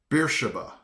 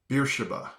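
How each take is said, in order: Both takes have the same delivery.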